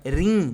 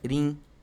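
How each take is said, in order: First: The word is said on a high tone. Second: The word is said on a low tone. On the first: It means to laugh. "no tom alto" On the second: It means to walk or travel. "no tom baixo"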